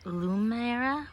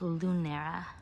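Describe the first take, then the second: First: The middle consonant is an M sound. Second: The middle consonant is an N sound. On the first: The speaker calls it wrong. "I've been saying Lumera with an M" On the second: The speaker calls it right. "but it's Lunera"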